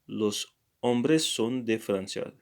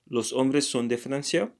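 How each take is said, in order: First: Said in the usual way. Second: Francia rising at the end as a question; question intonation. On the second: Shown as a demonstration. Teacher turns the statement into a question, rising on Francia. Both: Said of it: "use another intonation".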